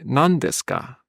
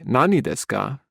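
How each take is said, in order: First: The first word is shortened to nan. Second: The first word is said in full as nani. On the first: The speaker calls it right. "we have to say nan desu ka" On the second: The speaker calls it wrong. "We don't say nani desu ka"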